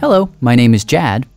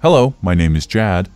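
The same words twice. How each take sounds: First: It is said in his normal voice. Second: It is said in a lowered, deeper voice.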